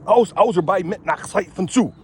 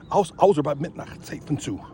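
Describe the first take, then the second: First: German prepositions recited higher and louder, "aus, außer bei Mitternacht Zeit von zu" drilled like a class chant; reciting German. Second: Said in the usual way. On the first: Shown as a demonstration. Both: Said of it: "Those are the articles".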